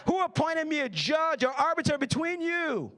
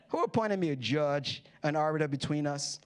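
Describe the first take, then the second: First: Higher, indignant challenge; exasperated. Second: Said in the usual way. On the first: Acted. Jesus rebuking the man who interrupted, mock exasperated. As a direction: toss it back as an exasperated question.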